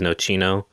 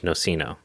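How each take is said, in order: First: It is said with an Italian pronunciation. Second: It is said with an English pronunciation. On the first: "I think the Italian is nocino" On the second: "and the English is nocino"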